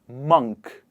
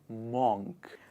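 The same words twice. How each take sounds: First: The vowel is an 'uh' sound. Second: The vowel is an 'o' sound. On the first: The speaker calls it right. "is pronounced as uh" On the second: The speaker calls it wrong. "It is not O"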